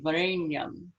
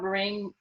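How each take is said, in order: First: The nasal sound is made farther back, more nasal. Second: The nasal sound is plain, not pulled back. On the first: The speaker calls it right. "a little extra um farther back in the mouth nasality" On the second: The speaker calls it wrong. "it's not Vareng"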